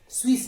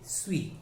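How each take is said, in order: First: The word ends with an audible s sound. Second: The word ends on the vowel, no s. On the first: The speaker calls it wrong. "स्वीस नहीं" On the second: The speaker calls it right.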